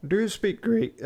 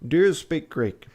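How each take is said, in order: First: Much higher, strained posh attempt; odd strained voice. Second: Higher, louder posh gentleman. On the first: Fogg asks Passepartout about Greek, strained high voice. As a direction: reach for the posh voice and overshoot. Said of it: "sorry, wrong voice". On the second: Acted. Fogg asking his valet about Greek, posh voice. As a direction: play it as a stiff posh master. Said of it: "I'm trying to be posh".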